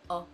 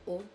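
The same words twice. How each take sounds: First: The vowel is said with an open mouth. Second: The vowel is said with a closed mouth. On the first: "and the open O" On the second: "it's the closed O"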